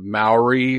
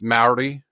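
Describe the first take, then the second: First: The R is said without a roll. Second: The R is rolled. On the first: "is how I'd say it in America" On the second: "You roll that R"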